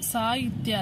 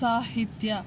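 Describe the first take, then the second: First: The middle is said without a breathy h. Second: The middle is said with a breathy h. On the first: The speaker calls it wrong. "ಅಲ್ಲ" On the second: The speaker calls it right. "ಉಸಿರನ್ನ ಬಿಟ್ಟು ಹೇಳಿರೋದ್ರಿಂದ"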